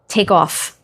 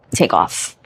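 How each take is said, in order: First: Said in the usual way. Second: Whispered, lower echo of the command. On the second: Shown as a demonstration. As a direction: breathe the words out as a hushed echo. Repeats the command, second time whispered.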